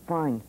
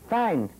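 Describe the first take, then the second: First: A lower, clipped, sullen "Fine," dropping at the end; curt fine. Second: A louder, snapped "Fine." falling hard; irritated fine. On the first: To friends asking about the workshop, a low sullen brush-off. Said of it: "with this kind of expression". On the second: To friends asking again, a louder irritated snap. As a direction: bite off "Fine." louder, losing patience. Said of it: "the third time I used a very unladylike language". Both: Retold or imitated.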